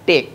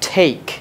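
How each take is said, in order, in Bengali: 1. t টা বাংলা ধাঁচে বলা হয়। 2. t টা ইংরেজি ধাঁচে বলা হয়। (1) "তোমরা আগে যেটা বলতা টেক" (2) "এটার উচ্চারণটা একটু ডিফারেন্ট"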